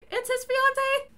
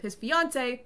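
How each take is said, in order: First: FIANCÉE pitched far up as a question; doubtful question. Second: Said in the usual way. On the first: Real, not acted. Narrator unsure if fiancée or wife, questioning "fiancée" high.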